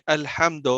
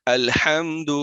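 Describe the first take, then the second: First: الحمد ending in a vague o, alhamdo; majhool mispronunciation. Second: الحمد ending in a clear short u, alhamdu; correct clear vowel. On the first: Teacher imitating a faulty reader, majhool o ending on الحمد. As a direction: blur the final u of الحمد into o. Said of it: "مجہول ہے". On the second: Teacher modelling the word, الحمد with clear final u. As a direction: end الحمد on a pure u sound. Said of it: "simple word ہے الحمد". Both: Shown as a demonstration.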